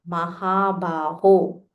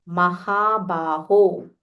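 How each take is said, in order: No difference in how they are said.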